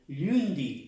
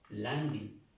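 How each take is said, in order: First: The first vowel sounds like a 'u'. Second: The first vowel sounds like an 'a'. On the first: The speaker calls it wrong. "no se pronuncia por esa U" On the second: The speaker calls it right. "como si aquí esto fuera una A"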